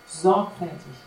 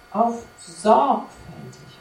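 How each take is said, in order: First: Said in the usual way. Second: Sorgfältig drawn out slowly and louder; stress on sorgfältig. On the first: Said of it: "Betonung liegt hier auf sorgfältig". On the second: Shown as a demonstration. Preacher stressing sorgfältig to the congregation, slow and louder. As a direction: lean hard on sorgfältig, slowly. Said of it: "Also Betonung liegt hier".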